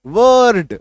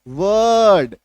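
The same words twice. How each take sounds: First: "वर्ड" with a full r, louder; loud "वर्ड" with a clear r; common way. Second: "वर्ड" with the r hidden, almost silent; correct way. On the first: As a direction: say "वर्ड" rolling the r. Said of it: "हमें सिखाया गया है". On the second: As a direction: say "वर्ड" with only a murmur of r. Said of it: "उच्चारण क्या होगा". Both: Shown as a demonstration.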